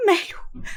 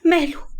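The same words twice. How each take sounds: First: High, breathy cry of the word ماله; ماله choked out in a sob; sobbed whisper. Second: High, panicked question; demanding answer in panic; frantic cry. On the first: (ماله بهمس باكي) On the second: (سؤال صارخ مذعور) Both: Acted. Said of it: "صرخت حبيبة بجنون".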